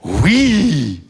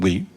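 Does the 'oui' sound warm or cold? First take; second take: warm; cold. First: It sounds warm and convincing. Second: It sounds cold and unconvincing.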